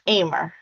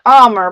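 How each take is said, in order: First: The name rhymes with gamer. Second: The name does not rhyme with gamer. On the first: The speaker calls it right. "It's pronounced Amer. ... So gamer, Amer" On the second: The speaker calls it wrong. "but it's not pronounced that way"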